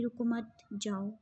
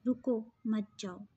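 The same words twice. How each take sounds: First: "रुको मत" run together, pause, then "जाओ"; pause after मत. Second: "रुको" set apart, pause, then "मत जाओ"; pause after रुको. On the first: Teacher showing one of two meanings, pause after मत. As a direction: break the phrase after मत, before जाओ. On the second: Teacher showing the other meaning, pause after रुको. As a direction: break the phrase after रुको, before मत. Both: Shown as a demonstration. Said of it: "इसके तो दो तरह के मीनिंग हैं".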